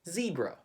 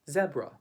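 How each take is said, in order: First: It is said with a Filipino accent. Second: It is said with a British accent. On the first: "how do we pronounce it in the Philippines? We actually say zebra" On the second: "In the U K, they would pronounce it as zebra"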